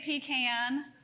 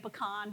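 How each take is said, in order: First: It is said the South Georgia way. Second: It is said the refined, non-regional way.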